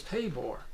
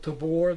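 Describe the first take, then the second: First: Tabor with stress on the first syllable; mistaken name pronunciation. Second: Tabor with stress on the second syllable; correct name pronunciation. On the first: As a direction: say Tabor as TAY-bor. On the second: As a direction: say Tabor as tuh-BOR. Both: Shown as a demonstration. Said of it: "I thought it was Tabor".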